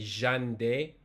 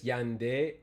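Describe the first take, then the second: First: It begins with a buzzing zh-like sound. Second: It begins with a glide like English y. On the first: "Some people say ja... like how Argentinians pronounce" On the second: "it's like the English Y. It's a semi vowel"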